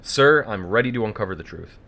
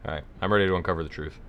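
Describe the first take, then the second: First: Bad movie dubbing. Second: Fast, rushed dubbed line; bad movie dubbing. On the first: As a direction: overplay it like a cheap dub. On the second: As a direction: gabble it like a cheap dub. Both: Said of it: "I'm doing the dub voice".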